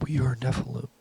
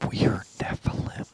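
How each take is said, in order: First: A higher, whispered alien chorus; scary alien voice. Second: Eerie whispered alien chorus; scary alien voice. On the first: Aliens at his bedside answer him, soft whispered alien voice. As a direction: hiss it softly like four aliens at once. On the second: A man retelling the aliens at his bed, eerie whispered voice. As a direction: breathe it like a ghostly alien hive. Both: Retold or imitated. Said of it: "they said in, like, scary, alien, high-pitched, deep voice".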